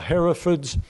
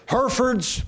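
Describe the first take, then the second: First: "Herefords" as HERR-uh-fudz; English pronunciation. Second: "Herefords" as HUR-furdz; American pronunciation. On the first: Showing what England calls the cattle, "Herefords" as HERR-uh-fudz. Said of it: "in England, they call it". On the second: Back to the American name for cattle, "Herefords" as HUR-furdz. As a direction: say "Herefords" in two r-coloured syllables, HUR-furdz. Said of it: "in England, they call it Herefords". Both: Shown as a demonstration.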